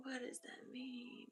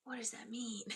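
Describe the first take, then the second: First: Slow unvoiced whisper. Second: Said in the usual way. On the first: Real, not acted. Medium puzzling over cryptic spirit message, whispered. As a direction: whisper the question to yourself slowly. Repeats question, now whispered.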